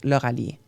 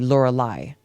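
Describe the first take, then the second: First: The name ends with an 'ee' sound. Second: The name ends with an 'eye' sound. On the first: This is how the owner of the name says it. "So it's pronounced Lauralie" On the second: This is how English readers say it from the spelling. "when people read my name, they will say Lorelai"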